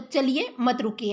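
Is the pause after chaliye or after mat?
after chaliye. There is a pause after chaliye.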